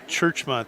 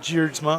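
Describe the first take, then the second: First: The name begins with a 'ch' sound. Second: The name begins with a 'j' sound. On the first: The speaker calls it right. "It's Churchma" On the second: The speaker calls it wrong. "is not Jeerdsma. I'm wrong"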